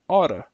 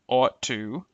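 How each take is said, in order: First: The words blend into one short reduced form. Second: Both words are said fully and separately. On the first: "the reduced forms" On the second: "the original forms"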